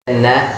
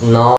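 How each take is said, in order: First: The vowel after n sounds like 'a'. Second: The vowel after n sounds like 'o'. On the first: The speaker calls it right. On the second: The speaker calls it wrong.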